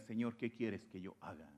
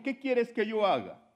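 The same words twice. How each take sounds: First: Soft, low and hushed, bowing before the Lord; humble quiet plea. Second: Higher and louder, a cry to the Lord; urgent loud plea. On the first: Preacher voicing the sinner's humble plea, quietly. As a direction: surrender it quietly, almost under breath. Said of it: "más vale que tú le digas". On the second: Preacher voicing Saulo crying out to Jesus, loudly. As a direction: call the question out with urgency. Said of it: "Él dijo". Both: Retold or imitated.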